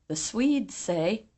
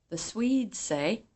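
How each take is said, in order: The two takes are said the same way.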